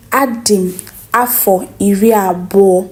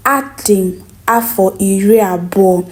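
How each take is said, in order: Both takes have the same delivery.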